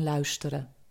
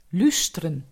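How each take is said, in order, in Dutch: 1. De eerste klinker is de ui-tweeklank. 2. De eerste klinker is een gewone u-klank. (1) "in plaats van luisteren" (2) "En de ui wordt soms een u"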